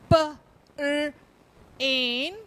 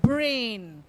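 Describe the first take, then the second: First: "P", "R", "in" as separate sounds; sounded out. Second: Said in the usual way. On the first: Shown as a demonstration. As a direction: split brain into "P, R, in" with gaps. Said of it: "let's look at some words". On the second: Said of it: "then the whole word".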